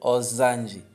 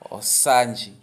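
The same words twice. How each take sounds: First: The s is voiced, sounding like z. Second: The s is voiceless, sounding like double s. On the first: It is read the Portuguese way. The speaker calls it wrong. "se fosse em português, estaríamos a ler Osanji" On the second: It is read the Umbundu way. The speaker calls it right. "como se fossem dois S"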